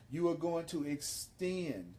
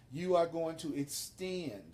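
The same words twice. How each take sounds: The two takes are said the same way.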